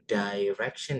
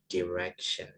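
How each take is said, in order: First: The first vowel sounds like 'ai'. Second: The first vowel sounds like short 'i'. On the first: The speaker calls it wrong. "bacanya bukan direction ya" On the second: The speaker calls it right. "tapi direction"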